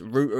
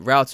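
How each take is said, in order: First: It is said in a British accent. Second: It is said in an American accent.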